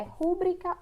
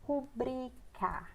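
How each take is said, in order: First: Rúbrica stressed as "RÚ-bri-ca"; stress on first syllable. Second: Rubrica stressed as "ru-BRI-ca"; stress on second syllable. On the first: Teacher asking which is right, rúbrica stressed on RU. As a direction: hit the RU of rúbrica. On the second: Teacher asking which is right, rubrica stressed on BRI. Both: Shown as a demonstration. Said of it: "O certo é rúbrica ou rubrica?".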